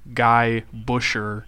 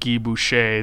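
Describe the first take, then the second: First: The name is pronounced with English sounds. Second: The name is pronounced with French sounds. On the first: The speaker calls it wrong. "you already offended all of our French Canadians by saying" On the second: The speaker calls it right. "instead of"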